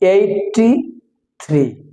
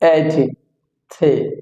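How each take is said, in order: First: The r sound is clearly pronounced. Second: The r sound is dropped. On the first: The speaker calls it wrong. "Mister রহিম বলছে eighty-three. So this is not correct" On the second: The speaker calls it right. "এই আরটা উচ্চারণ করে না মিস্টার John"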